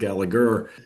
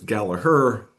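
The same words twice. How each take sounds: First: The second G is sounded. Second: The second G is silent. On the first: The speaker calls it wrong. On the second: The speaker calls it right.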